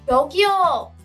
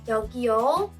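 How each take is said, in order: First: The word is said with higher pitch. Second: The word is said with lower, plain pitch. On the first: Someone is calling for attention. "with higher intonation, it could mean hey" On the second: Something is being handed over. "Here you are"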